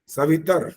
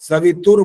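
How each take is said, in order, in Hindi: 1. अंतिम 'r' से पहले कोई 'u' स्वर सुनाई नहीं देता है। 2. अंतिम 'r' से पहले 'u' स्वर सुनाई देता है। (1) "सवितर दुरितानि" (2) "सवितुर नहीं है ये"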